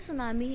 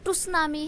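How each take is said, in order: First: The word begins with an s sound. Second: The word begins with a t sound. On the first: The speaker calls it right. "पढ़ते सुनामी है" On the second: The speaker calls it wrong. "लिखते तो टुसनामी है"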